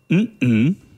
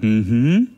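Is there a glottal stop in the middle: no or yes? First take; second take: yes; no. First: The hum is broken by a glottal stop. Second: The hum flows smoothly without a glottal stop. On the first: It means no. "oder mhm. ... um es zu verneinen" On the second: It means yes. "Man kann zustimmen, sagen mhm"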